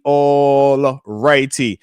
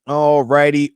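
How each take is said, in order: First: Slow stretched all righty. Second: Said in the usual way. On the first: Real, not acted. Streamer moving to next topic, slow drawn-out all righty. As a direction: drag out all righty very slowly, falling.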